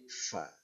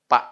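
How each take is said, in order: First: It starts with an f sound. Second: It starts with a p sound. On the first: The speaker calls it right. "tapi fa" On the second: The speaker calls it wrong. "fa tidak boleh dibaca pak"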